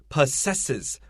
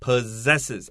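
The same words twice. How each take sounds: First: The middle consonant is a hissing s sound. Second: The middle consonant is a buzzing z sound. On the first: The speaker calls it wrong. "We don't say possesses" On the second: The speaker calls it right. "the word possess has a z pronunciation"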